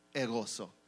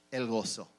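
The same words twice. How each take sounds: The two takes are said the same way.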